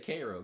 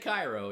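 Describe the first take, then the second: First: It is said the local Illinois way. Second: It is said the way outsiders say it. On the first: This is how people in Illinois say it. The speaker calls it right. "We say Cairo" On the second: This is how people outside Illinois say it. The speaker calls it wrong. "We don't say Cairo in Illinois"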